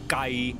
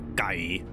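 First: The pitch stays flat and level. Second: The pitch stays low. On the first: It means far. "as in just the flat one" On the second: It means chicken. "like low"

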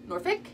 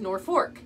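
First: It is said the way Virginia locals say it. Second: It is said the way Nebraska locals say it. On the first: This is the local name of the Virginia town. "One says Norfolk, that's Virginia" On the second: This is the local name of the Nebraska town. "one says Norfolk, that's Nebraska"

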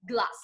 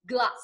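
The two takes are said the same way.

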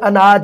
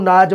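First: The word starts with a vowel sound. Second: The opening vowel is dropped entirely.

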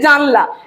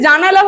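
First: No vowel is heard between n and l. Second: An a vowel is heard between n and l. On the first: It is the regional dialect form. "মধ্যস্বরের কি হচ্ছে, লোপ পাচ্ছে" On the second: It is the standard form. "জানালা হয়ে যাচ্ছে"

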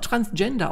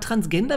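First: The g sounds soft, as in English. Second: The g sounds hard, as in German. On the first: "Man kann es auch Transgender aussprechen" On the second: "aber Transgender wird's geschrieben. Und das ist Deutsch"

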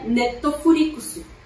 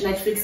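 First: It is said with added Japanese vowels. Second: It is said with ordinary Portuguese pronunciation.

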